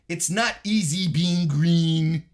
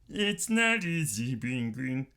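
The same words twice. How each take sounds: First: It is said in his normal speaking voice. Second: It is said in a put-on puppet-like voice.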